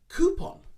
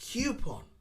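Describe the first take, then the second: First: It begins with a long 'koo' sound. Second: It begins with a 'kyoo' sound. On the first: The speaker calls it right. "It's more of a coo, like an elongated O" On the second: The speaker calls it wrong. "Many people use Q at the start, the Q sound"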